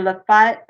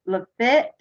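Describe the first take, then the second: First: Lafayette said as "luh-FIGHT"; alternative pronunciation. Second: Lafitte said as "luh-FIT"; first pronunciation. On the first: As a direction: give Lafayette a long "eye" vowel in the last syllable. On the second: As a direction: stress the second syllable of Lafitte, short and crisp vowel. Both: Shown as a demonstration. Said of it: "however you want to pronounce it".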